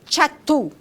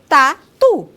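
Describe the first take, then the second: First: The word begins with a 'ch' sound. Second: The word begins with a plain 't' sound. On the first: The speaker calls it wrong. "eu não falo tchatu" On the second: The speaker calls it right. "eu falo tatu"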